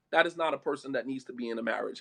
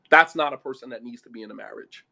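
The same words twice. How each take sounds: First: Said in the usual way. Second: Low-pitched, firmer verdict; firm restatement. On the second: Real, not acted. Preacher saying who shouldn't marry, firm and low. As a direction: lay down the verdict firmly. Repeats verdict after "this real talk.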